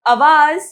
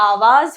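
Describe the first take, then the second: First: आवाज with a short first vowel, "avaaz", slow and loud; mispronounced आवाज. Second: आवाज with two long vowels, "aa-vaaz"; correct आवाज. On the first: Teacher showing children the wrong form, आवाज slowly as "a-vaaz". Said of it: "आवाज नहीं". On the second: Teacher correcting children, आवाज begun with long आ. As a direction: open आवाज on a full long आ. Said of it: "आवाज होता है". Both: Shown as a demonstration.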